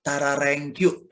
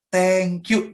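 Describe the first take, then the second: First: "Tararengkyu" drawn out as a clumsy beginner's thank you, slow; wrong pronunciation. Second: "thank you" said cleanly as English, a bit louder; right pronunciation. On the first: Learner's first try at English thank you, garbled "Tararengkyu". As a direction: fumble "Tararengkyu" slowly, syllable by syllable. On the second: Learner after a month says "thank you" correctly. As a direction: say "thank you" properly and confidently. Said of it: "Pasti mulai". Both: Shown as a demonstration.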